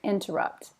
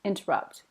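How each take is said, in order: First: The middle T sound is clearly pronounced. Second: The same.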